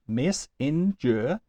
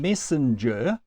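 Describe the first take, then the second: First: "messenger" slowly in three separate beats, MES, SEN, GER; split into syllables. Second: Said in the usual way. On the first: Shown as a demonstration. Teacher demonstrating three syllables to students, slowly beat by beat. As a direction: pause after each syllable of "messenger". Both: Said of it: "has three syllables".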